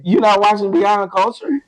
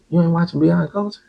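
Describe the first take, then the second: First: It is said in a happy tone. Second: It is said in a confused tone.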